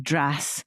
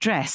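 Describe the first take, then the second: First: The vowel is very open, close to ash. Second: The vowel is a closer, mid e sound. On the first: Younger speakers say it this way. "that's more like the ash sound" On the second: The older way of saying it. "rather than saying dress"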